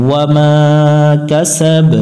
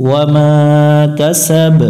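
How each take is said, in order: Both takes have the same delivery.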